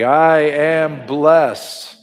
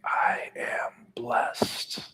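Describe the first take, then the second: First: It is said firmly with strong conviction. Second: It is whispered very softly with breath. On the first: "with conviction" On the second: "Can you whisper it with your mouth and your breath?"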